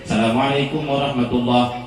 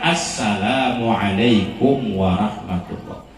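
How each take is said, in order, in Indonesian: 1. Bunyi awalan itu dihilangkan. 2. Bunyi awalan itu dilafalkan dengan jelas. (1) "alif lamnya mana ya" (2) "yang benar adalah"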